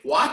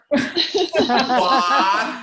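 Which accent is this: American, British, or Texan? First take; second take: American; Texan. First: A slight breathy h comes before the w. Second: A strong breathy h comes before the w. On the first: "An American would say, ... There is a little who" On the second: "in Texas, ... They really emphasize the who"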